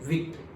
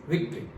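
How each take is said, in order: No difference in how they are said.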